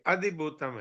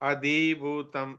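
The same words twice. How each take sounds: First: The vowel in 'dhi' is kept short. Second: The vowel in 'dhi' is held long. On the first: The speaker calls it right. "धी छोटा है ना ... ये अधिभूतम है।" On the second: The speaker calls it wrong. "ये धी पे तुम थोड़ा ज्यादा रुक गई, ... ये बड़ा हो गया। अधिभूतम ऐसे बोला।"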